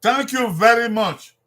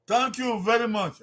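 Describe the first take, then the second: First: Higher, louder "Thank you very much" with "very" stressed; emphatic model phrase. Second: Higher repeat of "Thank you very much", starting on "thank"; repeated model phrase. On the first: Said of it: "How do you say it in Edo?". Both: Shown as a demonstration.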